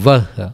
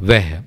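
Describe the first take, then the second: First: The vowel sounds like 'a' in 'vah'. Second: The vowel sounds like 'e' in 'veh'. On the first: This is the pronunciation that follows the spelling. "వహ్ అవుతుంది" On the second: This is how native Hindi speakers say it. "Hindi వాళ్ళు ... వెహ్ అని పలుకుతూ ఉంటారు"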